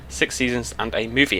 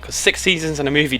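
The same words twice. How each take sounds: First: Said in the usual way. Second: "six seasons and a movie" called out higher, like a slogan; rallying cry. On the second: Shown as a demonstration. Vlogger rallying fellow fans, "six seasons and a movie" called out higher. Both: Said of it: "damn it, ladies and gentlemen".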